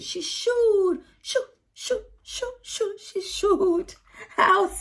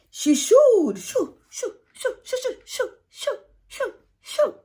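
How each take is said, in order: First: High crying shoo shoo; shooing demo. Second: High, squealing shoo shoo to chase animals; demonstrated shooing, high and crying; shooing noises. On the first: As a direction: chase the hens off with high shoos. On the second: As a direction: shoo them out in a high cry. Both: Shown as a demonstration. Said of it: "So you have to demonstrate".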